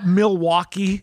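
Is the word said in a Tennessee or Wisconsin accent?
Tennessee. It is said with a Tennessee accent.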